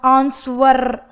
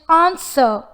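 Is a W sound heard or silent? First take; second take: heard; silent. First: A W sound is pronounced. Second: No W sound is pronounced. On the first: The speaker calls it wrong. "but not answer" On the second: The speaker calls it right. "the approximate consonant sounds W and R are unheard. It is just answer"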